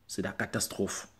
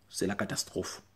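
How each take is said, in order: Both takes have the same delivery.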